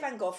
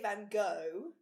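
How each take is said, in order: First: The name is said the British way. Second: The name is said the American way. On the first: "we say Van Gogh, obviously, in the UK" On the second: "In America they say Van Gogh"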